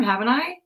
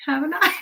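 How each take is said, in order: First: Said in the usual way. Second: Much higher teasing question; higher rising tease to the viewers; mock innocent. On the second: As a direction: ask it again, playfully innocent.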